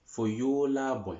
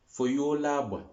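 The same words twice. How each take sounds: The two takes are said the same way.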